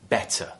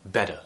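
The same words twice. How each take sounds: First: The middle T is a clear T sound. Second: The middle T is a soft D-like flap. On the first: "I'm pronouncing that T, that T very, very clearly" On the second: "where the T is actually replaced with a D sound"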